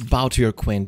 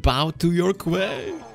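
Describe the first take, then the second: First: Said in the usual way. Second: Slow, drawn-out command climbing high; grand mock queen. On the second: Player lording it over the opponent, grand mock-queen voice. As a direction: stretch it out imperiously, pitch rising to the end. Repeats the game's line grandly.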